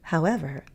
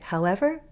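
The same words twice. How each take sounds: First: The pitch falls and then rises. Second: The pitch rises slightly at the end. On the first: "that fall rise" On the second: "You can go up a little"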